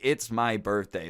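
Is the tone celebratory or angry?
angry. It is said in a very angry tone.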